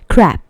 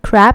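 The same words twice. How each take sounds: First: The final consonant is voiceless. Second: The final consonant is voiced.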